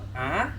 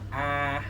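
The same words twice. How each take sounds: First: The vowel has a rising, question-like pitch. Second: The vowel is said on a flat pitch. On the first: "merong patanong A" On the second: "yung A yung walang ano"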